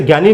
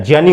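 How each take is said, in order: First: ज्ञानी said as gyani, with a hard g; wrong pronunciation. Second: ज्ञानी said as jnyani, starting with a j sound; correct pronunciation. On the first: Teacher showing students the wrong way, gyani with hard g. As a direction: mispronounce ज्ञानी as gyani, the way to avoid. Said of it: "ज्ञ से ज्ञानी नहीं होता है". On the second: Teacher giving students the correct form, jnyani with a j sound. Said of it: "ज्ञानी होता है". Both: Shown as a demonstration.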